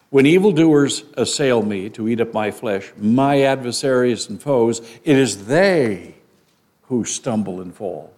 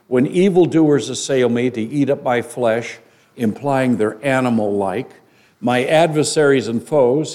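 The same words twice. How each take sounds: First: "it is they" slowed, with they leaned on hard; stress on they. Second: Said in the usual way. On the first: Shown as a demonstration. Preacher showing his congregation the weight on "they" in "it is they". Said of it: "read it with that emphasis on that word". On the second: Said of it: "when you read it with that emphasis".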